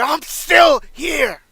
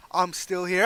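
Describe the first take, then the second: First: Much louder and higher, very slow, stretched out; defiant shout. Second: Said in the usual way. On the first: Pretend. Foley defying the Legend Killer, full shout. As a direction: scream it at the crowd in defiance.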